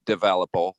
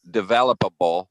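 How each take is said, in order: First: "developable" said as devel-a-pul, a syllable short; clipped pronunciation. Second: "developable" with every syllable, devel-op-a-ble; corrected pronunciation. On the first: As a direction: squeeze "developable" into four syllables. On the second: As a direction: spell out "developable" in full. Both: Real, not acted. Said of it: "is that the right word?".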